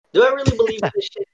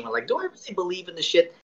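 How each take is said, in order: First: Higher, louder and fast; emphatic repeat. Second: Said in the usual way. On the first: Real, not acted. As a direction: fire the question back with emphasis.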